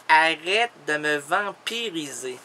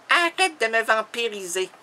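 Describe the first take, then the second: First: Charlotte. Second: Woman's protest, first take; lightly voiced woman protesting; Charlotte. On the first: Acted. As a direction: say it lower, stretching each word. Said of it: "elle dit, «Arrête de me vampiriser.»". (protestation basse et étirée) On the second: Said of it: "elle me dit". (protestation de femme, légèrement jouée)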